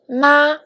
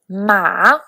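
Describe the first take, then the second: First: The pitch stays high and level. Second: The pitch dips low, then rises. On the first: "for the first tone" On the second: "for the third tone"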